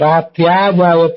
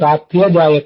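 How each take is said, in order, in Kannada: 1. "ratry" ನಂತರದ ಸ್ವರ ದೀರ್ಘ. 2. "ratry" ನಂತರದ ಸ್ವರ ಹ್ರಸ್ವ. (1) "ರಾತ್ರ್ಯಾ ಅಂತ ದೀರ್ಘ ಇದ್ರೆ ಆ ದೀರ್ಘ ತಪ್ಪು" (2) "ಹೀಗಾಗಬೇಕು"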